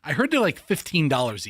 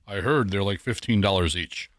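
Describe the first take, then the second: First: It is said in a casual, offhand tone. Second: It is said in a deliberately serious tone.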